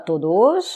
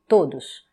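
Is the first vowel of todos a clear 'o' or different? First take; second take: different; clear 'o'. First: The first syllable is not a clear 'to'. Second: The first syllable is a clear 'to'. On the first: The speaker calls it wrong. "on ne dit pas todos" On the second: The speaker calls it right. "c'est to, todos ... on dit todos"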